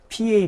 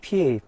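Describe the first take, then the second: First: The p has a strong puff of air. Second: The p is tense with no puff of air. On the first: "처음 p는 프로 하고" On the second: "두 번째 p는 뿌로 발음해요"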